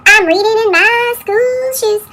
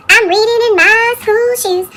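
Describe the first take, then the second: No difference in how they are said.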